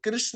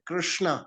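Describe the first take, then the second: First: The name ends without a long final vowel. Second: The name ends with a long final vowel. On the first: The speaker calls it wrong. "वो कृष्ण नहीं है" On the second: The speaker calls it right. "कृष्णा है"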